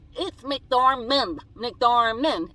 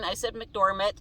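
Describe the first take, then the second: First: Slow, loud correction of McDormand; "McDormand" drawn out and loud, each syllable hit hard; mock correction. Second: Said in the usual way. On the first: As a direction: spell out "McDormand" slowly and loudly, like a know-it-all correcting her. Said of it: "I get people still saying". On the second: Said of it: "I'm sorry, I was crying".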